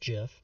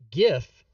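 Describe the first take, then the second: First: The word starts with a soft J sound. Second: The word starts with a hard G sound. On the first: The speaker calls it right. "It's pronounced GIF" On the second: The speaker calls it wrong. "because it's a hard G"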